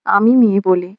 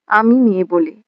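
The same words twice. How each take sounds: The two takes are said the same way.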